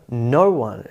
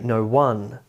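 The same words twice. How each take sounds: First: "no one" as one word, NO-one; front-stressed "no one"; first-syllable stress. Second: "no one" stressed as no-ONE; misplaced stress on the end of "no one"; wrong stress on "no one". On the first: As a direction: lean on NO in "no one". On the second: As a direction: put the weight on ONE in "no one". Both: Shown as a demonstration. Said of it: "It'd be odd to say".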